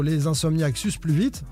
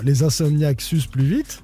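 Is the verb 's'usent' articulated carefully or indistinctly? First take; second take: indistinctly; carefully. First: The verb is blurred and sounds like 'sucent'. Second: The verb is clearly articulated as 's'usent'. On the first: The speaker calls it wrong. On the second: The speaker calls it right.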